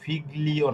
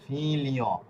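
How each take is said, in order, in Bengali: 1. g উচ্চারিত হয়, একটি শক্ত g ধ্বনিতে। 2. g নীরব থাকে, ধ্বনি হয় তালব্য 'l'। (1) "এটা কিন্তু ফিগলিও না" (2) "এটা হবে ফিলিও"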